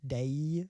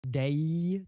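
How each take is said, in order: First: The vowel ends with a gliding y sound. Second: The vowel ends with a gliding y sound.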